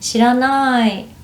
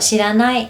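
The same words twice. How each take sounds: First: It is said in a gentle, softened tone. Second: It is said in a plain, blunt tone. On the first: The answer sounds polite and less abrupt. The speaker calls it right. "I would change my tone and make the sentence softer" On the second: The refusal sounds harsh and final. The speaker calls it wrong. "sounds strong"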